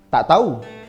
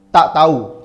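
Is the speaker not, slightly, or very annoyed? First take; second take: slightly; very. First: It is said with slight annoyance. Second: It is said with strong annoyance.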